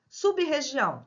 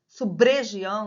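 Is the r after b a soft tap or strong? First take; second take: strong; soft tap. First: The b and r are separate, strong r. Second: The b joins the r, a soft tap. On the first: The speaker calls it right. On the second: The speaker calls it wrong.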